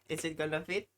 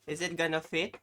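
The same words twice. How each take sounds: The two takes are said the same way.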